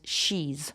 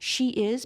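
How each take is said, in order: First: The words are reduced into one contracted syllable. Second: Both words are said fully and separately.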